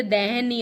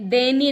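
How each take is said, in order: First: दहनीय slow, with h; correct form. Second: दयनीय as de-niy; no h, e in the first syllable of दयनीय; wrong form. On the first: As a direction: say दहनीय as deh-niy, drawn out. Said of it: "दहनीय होती है". (सही उच्चारण, दहनीय) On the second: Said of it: "दयनीय नहीं होती". (गलत उच्चारण, दयनीय) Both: Shown as a demonstration.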